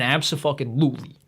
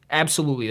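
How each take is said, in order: First: Abso-fucking-lutely, with fucking dropped into the middle of absolutely; expletive infixed. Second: Said in the usual way. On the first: Shown as a demonstration. Podcast host to listeners, splitting absolutely with fucking for emphasis. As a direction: say Abso-fucking-lutely with the swear wedged into the word.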